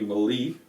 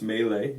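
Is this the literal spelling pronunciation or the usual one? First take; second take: literal spelling; usual. First: It is sounded out literally as spelled. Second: It is said with the usual accepted pronunciation. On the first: The speaker calls it wrong. "This looks like it should be melee" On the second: The speaker calls it right. "but it's pronounced melee usually"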